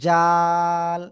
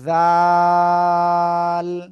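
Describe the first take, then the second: First: The tongue's middle touches the palate for the consonant. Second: The tongue tip touches the teeth for the consonant. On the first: The speaker calls it wrong. "এই জিহ্বার মধ্যখানে উপরে তালুর সাথে লাগতেছে" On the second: The speaker calls it right. "এই যে দুই দাঁতের আগার সাথে"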